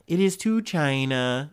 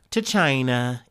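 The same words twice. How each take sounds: First: Slow Trump-style "China", drawn out like Trump; Trump accent. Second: Said in the usual way. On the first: Retold or imitated. Host mocks Trump's "China" in a light Trump accent. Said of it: "use my best Trump accent for that". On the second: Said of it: "use my best Trump accent".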